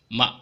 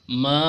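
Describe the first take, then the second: First: The vowel is short and clipped. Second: The vowel is held extra long. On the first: "maka ini dibaca pendek saja" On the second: "itu lebih panjang karena ada tanda alis bertemu hamzah"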